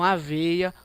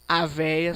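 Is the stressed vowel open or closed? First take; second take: closed; open. First: The stressed vowel is a closed e sound. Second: The stressed vowel is an open e sound. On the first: It means oats. "som fechado" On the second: It would mean the old woman. "som aberto"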